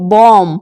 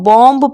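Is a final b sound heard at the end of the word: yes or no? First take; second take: no; yes. First: The final b sound is silent. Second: The final b sound is pronounced. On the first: The speaker calls it right. "अगर हम इनको ढंग से पढ़ें तो हम इसको पढ़ेंगे बॉम्ब" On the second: The speaker calls it wrong. "यहाँ पर आप हमेशा इसको बॉम्ब पढ़ते होंगे"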